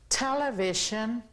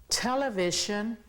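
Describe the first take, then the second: The two takes are said the same way.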